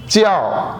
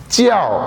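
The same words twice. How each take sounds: The two takes are said the same way.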